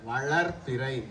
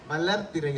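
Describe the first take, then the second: First: The consonants are pronounced carefully and distinctly. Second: The consonants are pronounced loosely and carelessly. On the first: The speaker calls it right. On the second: The speaker calls it wrong.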